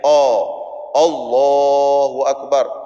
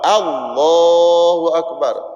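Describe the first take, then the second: First: The opening vowel is rounded like an o. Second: The opening vowel is an open, full a. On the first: The speaker calls it wrong. "Ada yang sebut oh Allahu akbar, tidak sah sembahyang macam tu" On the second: The speaker calls it right. "A tu betul. Allah tu tebal"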